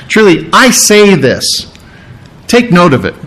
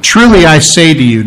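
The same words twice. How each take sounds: First: "Truly I say this" stretched out for emphasis; emphatic. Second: Said in the usual way. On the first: Retold or imitated. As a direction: lean deliberately on each word of "Truly I say this". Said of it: "because that's emphatic". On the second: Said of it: "anytime you see that in Scripture".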